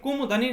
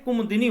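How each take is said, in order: First: The third syllable is said as 'da'. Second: The third syllable is said as 'di'. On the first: The speaker calls it wrong. "कुमुदनी नहीं" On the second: The speaker calls it right. "कुमुदिनी होता"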